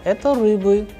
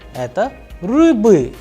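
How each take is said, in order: First: The pitch stays flat at the end. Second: The pitch rises at the end. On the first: It is an answer. "the sound is flat" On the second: It is a question. "the pitch of the sentence at the end would go higher"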